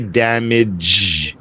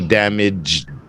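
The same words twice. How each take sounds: First: The word ends in a soft 'zh' sound. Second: The word ends in a 'dj' sound. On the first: The speaker calls it wrong. "don't say damage" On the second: The speaker calls it right. "Like orange with a little D in there"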